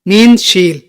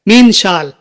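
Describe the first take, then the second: First: The second word has a long 'ee' vowel. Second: The second word has a long 'aa' vowel. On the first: "हम लोग हमेशा शील शील सुनते हैं" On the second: "सही अरबी में इस तरह बोला जाता है"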